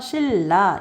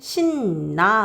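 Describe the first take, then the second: First: The middle consonant is a liquid l sound. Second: The middle consonant is a nasal n sound. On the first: The speaker calls it right. "뒤에 있는 유음의 영향으로요. 처음부터 신라 이렇게 발음하는 게 훨씬 편하거든요" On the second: The speaker calls it wrong. "굳이 신나 하는 것보다요"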